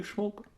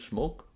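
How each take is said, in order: First: Smoke jumps much higher but softer; pointed high smoke. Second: Smoke asked with a light rise at the end; rising question. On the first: To viewers about fat smokers, smoke pitched up high and soft. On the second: To viewers about fat non-smokers, a mild rising smoke. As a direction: let smoke lift gently as a question. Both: Shown as a demonstration.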